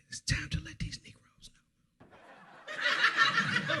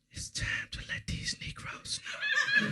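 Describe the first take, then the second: First: Hushed menacing whisper. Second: Put-on slow drunken whisper. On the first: Retold or imitated. Sister whispering a warning to her brother in the car. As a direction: whisper it like a dark secret. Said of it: "she looks at me and says". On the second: Drunk sister whispering a warning at the party. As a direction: breathe it out slow and ominous. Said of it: "She grabbed my arm and said".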